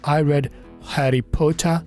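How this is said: The t in Potter is a crisp t. "ये British है।"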